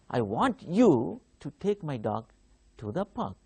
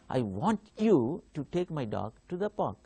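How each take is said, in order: First: The stress falls on the word you. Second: The same.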